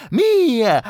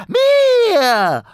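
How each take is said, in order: First: High goblin, louder; possessive goblin. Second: Very high shouted goblin cry. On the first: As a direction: claim it like a greedy goblin. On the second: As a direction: scream it out, triumphant. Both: Acted. Goblin claims the phone.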